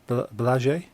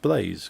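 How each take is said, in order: First: The name is said with Polish pronunciation. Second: The name is said with English pronunciation. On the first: "supposed to be pronounced uh" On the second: "known to everyone uh, in the U K as just Blaze"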